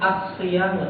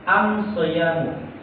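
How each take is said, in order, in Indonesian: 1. Kata ini dimulai dengan bunyi 'as'. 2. Kata ini dimulai dengan bunyi 'am'. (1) "mereka nggak bisa menyebut as-siyamu" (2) "tapi am-siyamu"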